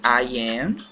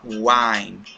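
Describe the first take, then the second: First: It is said as two separate full words. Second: It is said as one short contracted word.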